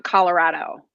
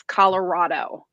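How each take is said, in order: First: Colorado with a short flat A in the middle. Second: Colorado with an open "ah-o" vowel in the middle. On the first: East Coast native showing the other way, Colorado with an A. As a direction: say Colorado with an A instead of an O. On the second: East Coast native showing how everybody back home says it, Colorado with an O. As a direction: say Colorado with more of an O than an A. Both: Shown as a demonstration. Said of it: "more of an O instead of an A".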